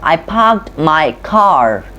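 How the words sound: The R sounds are pronounced and drawn out. This is how Americans generally say it. "we pronounce the R so elongated"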